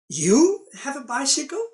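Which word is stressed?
you. The stress falls on the word you. Only this person has one, not the others. "meaning the others do not have"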